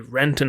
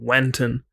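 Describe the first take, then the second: First: The name begins with an R sound. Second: The name begins with a W sound. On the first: The speaker calls it right. "I couldn't say Renton" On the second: The speaker calls it wrong. "I kept saying Wenton"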